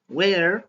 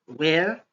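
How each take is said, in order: First: The final R sound is clearly heard. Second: The final R sound is silent. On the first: "avec l'accent américain, on entend le R final" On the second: "c'est accent britannique. On n'entend pas le R final"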